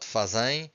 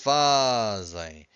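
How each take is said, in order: First: The stress is on the last syllable. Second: The stress is on the first syllable. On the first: The speaker calls it wrong. "almost all students say, will say fazem. It's not fazem" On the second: The speaker calls it right. "we stress this, the second to last syllable"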